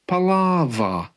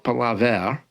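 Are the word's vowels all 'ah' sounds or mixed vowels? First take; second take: all ah; mixed. First: Every vowel in the word sounds like 'ah'. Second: The vowels are not all 'ah' sounds. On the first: The speaker calls it right. "all of the vowel sounds, sound like A" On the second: The speaker calls it wrong. "It's not palaver"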